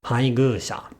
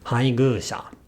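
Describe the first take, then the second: The two takes are said the same way.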